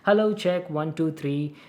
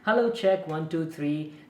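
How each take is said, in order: First: The voice is recorded about three feet away. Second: The voice is recorded about six feet away. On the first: "around like three feet distance away from the microphone" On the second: "around like six feet distance from the microphone. It's quite far"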